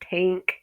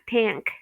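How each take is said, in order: First: The vowel differs from the plain short A. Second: The vowel is the plain short A sound. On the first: The speaker calls it right. "this is an exception. ... it's tank" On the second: The speaker calls it wrong. "It's not tank"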